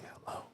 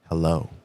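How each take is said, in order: First: It is whispered with little voice. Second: It is spoken in a full, normal voice.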